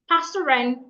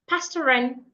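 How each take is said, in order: The two takes are said the same way.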